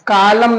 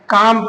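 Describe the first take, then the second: First: The L sound is pronounced with an extra vowel. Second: The L sound is left out of the word. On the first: The speaker calls it wrong. "कालम नहीं पढ़ेंगे" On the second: The speaker calls it right. "काम पढ़ेंगे"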